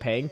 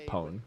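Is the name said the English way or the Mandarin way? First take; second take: English; Mandarin. First: The name is said with an English-style vowel. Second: The name is said with a Mandarin-style vowel. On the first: This is the easier version used with most people. "what I say is my name's [name]" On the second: This is the original Chinese form of the name. "in Chinese it's actually Pong"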